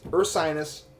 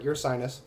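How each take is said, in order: First: The first syllable sounds like 'er'. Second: The first syllable sounds like 'your'. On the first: The speaker calls it right. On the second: The speaker calls it wrong. "not your sinus. I mean, I knew I was saying it wrong"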